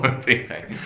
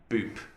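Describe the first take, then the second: First: The name begins with a W-like sound. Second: The name begins with a plain B sound. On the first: The speaker calls it right. "But it's Wupe, because the way they pronounce B is with a bit of a W sound" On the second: The speaker calls it wrong. "is it Boop"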